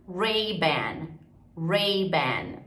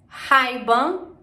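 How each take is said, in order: First: "Ray-Ban" as "RAY-ban", curled R; falling English "Ray-Ban". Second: "Ray-Ban" as "HAI-ban", louder and higher; H sound opening "Ray-Ban"; rising Portuguese-style "Ray-Ban"; Brazilian R. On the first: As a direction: model "Ray-Ban" with American R. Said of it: "eles falam Ra". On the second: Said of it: "a gente fala o Ra". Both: Shown as a demonstration.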